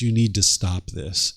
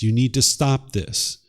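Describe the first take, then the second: First: It is said in a soft, gentle tone. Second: It is said in a firm, steady tone. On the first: "This is the way I might have talked to him" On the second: "firming up the tone and the tempo a little bit"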